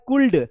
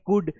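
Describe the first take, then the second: First: An l sound is pronounced before the d. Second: No l sound is pronounced before the d. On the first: "यहां लिखा हुआ है कुल्ड" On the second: "पढ़ते हैं कुड, तो यहां पर एल साइलेंट है"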